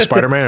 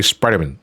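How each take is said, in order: First: Spider-Man with a full "man" at the end; usual pronunciation. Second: Spider-Man run together like a surname; alternate pronunciation. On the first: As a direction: give both parts of Spider-Man their full vowels. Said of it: "Do you pronounce it as". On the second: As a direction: reduce the end of Spider-Man to "mun". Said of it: "or do you say Spider-Man". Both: Shown as a demonstration.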